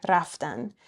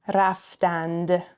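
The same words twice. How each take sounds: First: Raftan with the final d dropped; spoken form. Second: Raftand with the final d sounded; written form. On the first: Teacher showing spoken Persian, raftan without the d. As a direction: say raftan, ending on n with no d. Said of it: "we drop the d sound at the end". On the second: Teacher reading the correct written form, final d sounded in raftand. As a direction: say raftand, keeping the d at the end. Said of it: "correct written form is what's in parentheses". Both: Shown as a demonstration.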